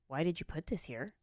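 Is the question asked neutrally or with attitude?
neutrally. The question is asked in a plain, neutral way.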